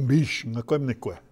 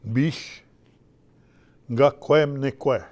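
First: "Bish ngakwemnikwe" said smoothly in one breath, stress on bish; Ojibwe word. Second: "Bish" alone with a rise, then "ngakwemnikwe" slow and louder with a hard ng-g; slow Ojibwe word. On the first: Elder teaching young people the Ojibwe phrase, said smoothly. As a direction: model "Bish ngakwemnikwe" at a normal pace for the class. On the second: Elder slowly spelling out the Ojibwe phrase for the kids. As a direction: break "Bish ngakwemnikwe" into two slow parts for learners. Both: Shown as a demonstration. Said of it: "So, bish ngakwemnikwe, say it".

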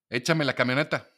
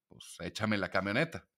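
First: Curt demand. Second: Said in the usual way. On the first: Retold or imitated. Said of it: "Ok, entonces yo soy un idiota". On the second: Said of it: "ya cuando hablas de camionetas".

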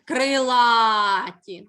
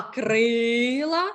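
First: Крилаті with a long, loud а; крилаті slowly, punching and holding the а; stress on А. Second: Крила with a long, drawn-out и; крила slowly, holding the stressed и, ending short. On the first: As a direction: stretch the middle а of крилаті right out. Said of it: "наголос на а". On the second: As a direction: stretch the first vowel of крила right out. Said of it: "наголос на". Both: Shown as a demonstration.

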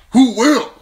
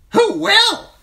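First: Put-on higher, louder rhetorical question from the old lord; Lord Commander's question. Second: Very high, loud bird squawk of the words; a talking raven parroting its master; raven echoing. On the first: Mormont ends his point. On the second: Acted. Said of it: "chimed the talkative raven".

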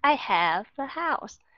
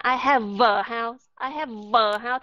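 First: "have a" joined with a light V, slowly; gentle linking. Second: "have a" with a heavy, buzzing V pushed into "a"; overdone V. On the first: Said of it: "trở thành ra rất là nhẹ nhàng". ("have a" nối âm V thật nhẹ nhàng) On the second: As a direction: exaggerate the V in "have a" as a mistake. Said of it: "các bạn đọc âm vờ mạnh quá đi". ("have a" nhấn âm V quá mạnh) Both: Shown as a demonstration.

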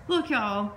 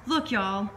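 Both takes have the same delivery.

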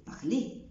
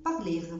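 First: Parler ending on e; silent final r. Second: Parler with the r sounded; wrong final r. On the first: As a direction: drop the r. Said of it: "بقول". (parler من غير R) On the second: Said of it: "مش بقول". (parler بـ R غلط) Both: Shown as a demonstration.

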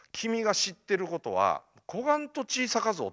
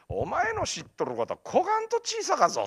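First: Mentor's line with a touch of Kumamoto dialect. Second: High-pitched, full Kumamoto dialect mentor. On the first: Mentor to student on how little he knows, light Kumamoto dialect. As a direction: start standard, slip into raised Kumamoto dialect. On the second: Mentor to student on how little he knows, emphatic Kumamoto dialect. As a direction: lecture in broad Kumamoto dialect, voice raised in pitch. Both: Retold or imitated. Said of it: "熊本弁が師匠のセリフみたいな".

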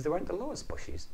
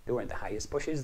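First: Lowest said much higher; high sing-song. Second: Said in the usual way. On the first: A narrator's reading. Highest versus lowest contrast.

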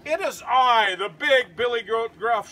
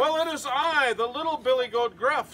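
First: Big goat's booming shout; loud, emphatic storybook declaration; loudest voice. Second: Higher-pitched little goat; lightly voiced tiny goat answering; wee small voice. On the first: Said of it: "in his loudest voice". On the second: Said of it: "in his wee, small voice". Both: A narrator's reading.

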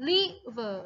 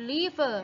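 First: "river" split slowly, first syllable held apart; "river" broken after the first syllable for learners; first syllable singled out. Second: Said in the usual way. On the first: Shown as a demonstration. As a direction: say "river" in two pieces, lingering on the first. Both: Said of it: "พยางค์แรกค่ะ".

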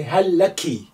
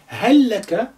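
First: هل لك ending in "laki", the short i sound at the end; ending for a woman. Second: هل لك ending in "laka", the short a sound at the end; ending for a man. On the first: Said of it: "If you are speaking to a lady". (هل لك as "hal laki", spoken to a woman) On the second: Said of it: "if you are speaking to a man". (هل لك as "hal laka", spoken to a man) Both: Shown as a demonstration.

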